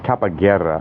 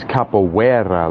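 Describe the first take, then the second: First: It sounds like 'kappa' followed by 'guerra'. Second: It sounds like a Boston 'cup of water'. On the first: A personal, deliberately altered version of the word. "My version is Kappa from the Greek letter Kappa and Guerra" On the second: The original form of the word. "the African form is capoeira, like imagine a person from Boston"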